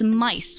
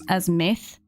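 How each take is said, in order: First: The name ends with an 's' sound. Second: The name ends with a 'th' sound. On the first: The speaker calls it right. "but it's mice" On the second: The speaker calls it wrong. "I keep on pronouncing it or wanting to pronounce it as, as myth"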